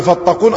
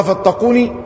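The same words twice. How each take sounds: First: "فاتقون" closed on n, no final vowel; shortened form. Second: "فاتقوني" with a clear final ee; original form. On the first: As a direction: end "فاتقون" on the bare n. (حذف الياء من آخر الكلمة) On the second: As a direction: finish "فاتقوني" on the sounded ya. (إثبات الياء في آخر الكلمة) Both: Shown as a demonstration. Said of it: "أصلها".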